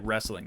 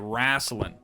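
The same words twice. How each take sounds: First: It is said with a standard pronunciation. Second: It is said with a Florida-style pronunciation. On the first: "They don't say wrestling" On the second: "They say wrestling"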